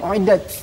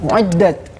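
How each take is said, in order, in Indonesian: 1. Konsonan terakhir itu terdengar seperti s. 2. Konsonan terakhir itu bunyi t yang jelas.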